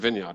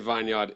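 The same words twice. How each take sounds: First: The first syllable sounds like 'vin'. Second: The first syllable sounds like 'vine'. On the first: The speaker calls it right. "you mean vineyard" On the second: The speaker calls it wrong. "it would sound very unnatural"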